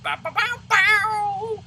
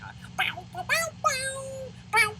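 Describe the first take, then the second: First: High mocking guitar-riff "bow"; porn music riff. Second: High mock guitar riff sung as "bow"; porn music riff. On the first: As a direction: sing the cheesy riff way up high. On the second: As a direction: scat the cheesy seventies guitar, way up high. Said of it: "pumping into seventies porn music".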